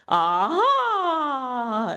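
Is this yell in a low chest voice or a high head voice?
head. The yell is high, in the head voice. "here's Tarzan on steroids. ... using the head voice"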